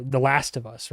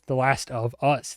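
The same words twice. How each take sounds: First: Said in the usual way. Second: Slow, deliberate "Us"; stress on US. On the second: Shown as a demonstration. Host unpacks the show's title meaning, stress on "Us". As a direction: draw out and land on "Us".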